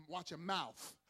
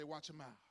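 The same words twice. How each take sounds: First: "mouth" ending in an F sound, said loud. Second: Said in the usual way. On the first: Shown as a demonstration. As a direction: say "mouth" loudly as "mouf". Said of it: "you gotta say it with the F". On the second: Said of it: "gotta say it with the F".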